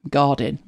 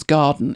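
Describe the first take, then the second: First: "garden" said the Brummie way; Brummie-accented "garden"; Birmingham pronunciation. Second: Said in the usual way. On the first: Shown as a demonstration. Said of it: "how they would pronounce garden in Birmingham". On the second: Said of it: "how they would pronounce garden".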